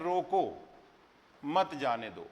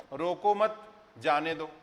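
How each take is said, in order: First: "रोको" set apart, then "मत जाने दो" as one falling phrase; pause after रोको. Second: Slow "रोको मत" joined, break, then "जाने दो"; pause after मत. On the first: Teacher reading the written line for students, clear pause between "रोको" and "मत जाने दो". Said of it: "अर्थ बदल गया". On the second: Teacher moving the comma to flip the meaning, "रोको मत" together, pause, "जाने दो". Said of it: "अगर हम ये यहाँ लगा दें". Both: Shown as a demonstration.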